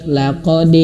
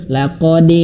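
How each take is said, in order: No difference in how they are said.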